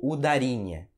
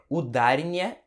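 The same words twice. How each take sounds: First: Second "udarinha" with the stress on RI, uda-RI-nha; stress on later syllable. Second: First "udarinha" with the stress on DA, u-DA-rinha; "udarinha" stressed u-DÁ-ri-nha; stress on middle syllable. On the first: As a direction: move the beat to RI in "udarinha". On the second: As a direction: lean on the second syllable DA in "udarinha". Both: Shown as a demonstration. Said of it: "como saber onde vai a sílaba tônica".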